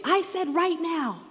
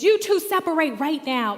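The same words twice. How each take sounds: First: Higher, louder, slow, RIGHT NOW pressed hard; "right now" hammered out slowly and firmly; insistent repeat. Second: Higher, louder sharp command; stern order. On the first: Teacher cutting off Noah's protest, slow hard "right now". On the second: Young after-school teacher ordering two boys apart, loud stern command. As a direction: order the kids apart at once. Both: Retold or imitated.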